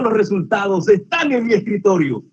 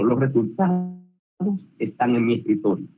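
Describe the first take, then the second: First: The voice sounds happy and positive. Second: The voice sounds fearful and nervous. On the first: The news is good and welcome. "Es algo positivo, es una alegría" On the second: The results may not be what was hoped. "Más que pena, puede ser temor, nervio"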